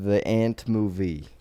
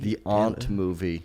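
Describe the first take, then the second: First: The word has a flat 'a' like 'ant'. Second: The word has a broad 'ah' vowel.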